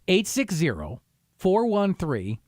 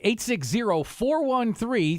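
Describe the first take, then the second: First: The number is read more slowly. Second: The number is read at normal speed.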